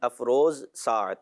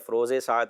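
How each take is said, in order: First: No linking vowel comes between the two words. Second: An 'e' vowel links the two words. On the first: The first word describes the second. The speaker calls it right. "अफरोजे साथ नहीं अफरोज साथ" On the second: The first word becomes a possessive linked to the second. The speaker calls it wrong. "आमतौर पे ये पढ़ा जाता है"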